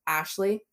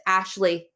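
First: Said in the usual way. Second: Curt angry answer. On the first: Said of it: "And I was like". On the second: Retold or imitated. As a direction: say the name curtly, clipped with a falling end. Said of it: "Like this".

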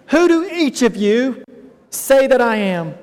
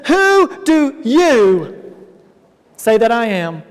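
First: "each of you" held up before a pause; single out "each of you", then pause; stress on EACH OF YOU. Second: "you" drawn out long; stress on YOU. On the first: Jesus addressing each disciple individually, "each of you" stressed. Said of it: "Each of you as an individual". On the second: Jesus questioning his disciples, "you" drawn out and stressed. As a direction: lean slowly on "you", stretching it. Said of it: "this word you". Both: Acted.

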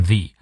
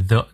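First: THE said as "thee"; "thee" before vowel. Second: Said in the usual way. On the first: Shown as a demonstration. Teacher showing the before only, said "thee". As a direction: say "the" with a long ee. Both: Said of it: "前面的the念the".

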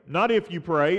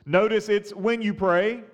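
First: "if" pushed against "when"; stress on if. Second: "when" leaned on with a lift; stress on when. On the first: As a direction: contrast the word "if" with a lower stressed hit. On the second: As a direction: hit the word "when" to set it against "if". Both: Shown as a demonstration.

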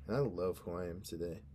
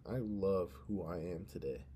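First: Said in the usual way. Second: Mean it the second time; sincere repeat. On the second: Shown as a demonstration. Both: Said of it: "let me say that again".

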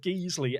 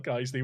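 First: "Geesley" with a long ee in place of the "eye" sound; deliberate mispronunciation. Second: Said in the usual way. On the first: Shown as a demonstration. Streamer baiting viewers for comments, mispronouncing "Geesley" as GEEZ-lee. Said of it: "I call it Geesley every year". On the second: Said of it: "where I call it Geesley".

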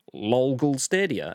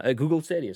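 First: Lol Google Stadia, with lol blurted by mistake; slip of the tongue. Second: Said in the usual way. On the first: Real, not acted. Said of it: "I had a lol stuck in my mouth".

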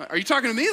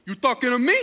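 First: Said in the usual way. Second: Jokingly challenging, "me" pushed up; mock confrontational. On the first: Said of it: "No, I didn't say that like that". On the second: Pastor joking at stranger calling him, mock challenge. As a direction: play at squaring up to him. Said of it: "I didn't say that like that".

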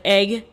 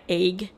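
First: Said in the usual way. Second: "egg" with a long AY vowel; Northwest vowel. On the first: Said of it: "in words like egg". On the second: Shown as a demonstration. Host showing the Washington and Oregon accent, "egg" said as "ayg". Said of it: "sound more like A Y".

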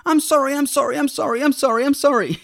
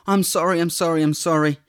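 First: Put-on much higher, childlike pleading; daughters pleading. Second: Said in the usual way. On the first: Dad imitating his daughters apologizing, high childlike pleading. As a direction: imitate little girls begging forgiveness, higher. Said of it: "they just start screaming". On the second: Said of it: "we start just screaming to our Lord".

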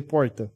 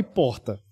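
First: Porta with a Southeastern R. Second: Porta with a short tapped R; dry R in porta. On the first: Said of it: "E você fala porta". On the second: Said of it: "é com um R seco". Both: Shown as a demonstration.

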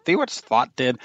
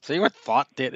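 First: Put-on a light touch of a Scottish accent on "See what thought did?"; lightly voiced Scottish mother, half-hearted; mild Scottish accent imitation. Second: Said in the usual way. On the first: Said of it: "with a thick Scottish accent". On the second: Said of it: "She was a Scottish lady".

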